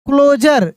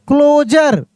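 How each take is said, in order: Both takes have the same delivery.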